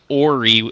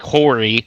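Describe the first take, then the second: First: The name begins with a vowel sound. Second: The name begins with an H sound. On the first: "they say Ori and say it with an O" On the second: "which sounds exactly like Hori"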